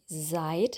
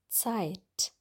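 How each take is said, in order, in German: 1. Das Wort beginnt mit einem einfachen z-Laut. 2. Das Wort beginnt mit einem ts-Laut. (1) "das ist nicht seit" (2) "sondern Zeit"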